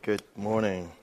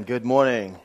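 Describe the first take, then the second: First: Subdued greeting. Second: Fuller, brighter second greeting; livelier retry. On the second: Pastor redoes his greeting to the congregation, more energetically. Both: Shown as a demonstration. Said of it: "Let's try that again".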